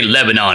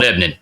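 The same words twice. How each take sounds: First: The name is pronounced the way outsiders say it. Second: The name is pronounced the local Tennessee way. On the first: This is not how residents say it. The speaker calls it wrong. "we don't say Lebanon here" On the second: This is how residents say the town's name. The speaker calls it right. "It's ... Lebanon"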